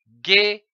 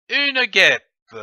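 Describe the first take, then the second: First: "guêpe" split as guê, pause, pe; syllable by syllable. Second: Said in the usual way. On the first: Shown as a demonstration. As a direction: sound out "guêpe" in two separate syllables, guê / pe. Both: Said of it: "L'association de ces syllabes".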